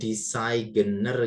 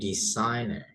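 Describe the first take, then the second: First: The g is pronounced. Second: The g is silent. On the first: The speaker calls it wrong. "Jadi bukan designer gitu bukan ya" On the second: The speaker calls it right. "huruf G nggak usah dibaca"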